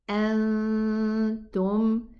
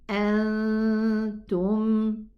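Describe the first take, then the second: The two takes are said the same way.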